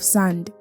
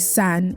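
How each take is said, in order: First: The word ends with a clear d sound. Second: The word ends without the final d sound. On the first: This is the standard way of saying it. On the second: This is the Creole way of saying it.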